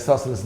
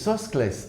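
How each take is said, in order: First: It is said in an English style. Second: It is said in a Greek style. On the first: This is the familiar classroom way of saying it. "Pythagoras ஐசோசலிஸ் தான் pronounce பண்ண போகிறேன்" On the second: This is how a Greek speaker says it. "அவர் வந்து நைஸாக இசோஸ்கிளைஸ் அப்படின்னு"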